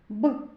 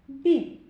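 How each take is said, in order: First: The b sound is hard, not palatalized. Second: The b sound is soft, palatalized. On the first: "Вимовляємо твердо" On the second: "Звук Бі вимовляється м'яко"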